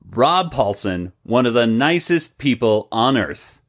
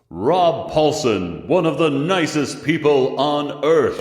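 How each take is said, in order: First: It is said plainly, with no echo effect. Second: It is said with a dramatic echoing effect.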